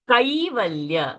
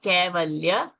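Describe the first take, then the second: First: The first vowel is the diphthong 'ai'. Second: The first vowel is a plain 'e'. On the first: The speaker calls it right. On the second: The speaker calls it wrong. "not Kevalya"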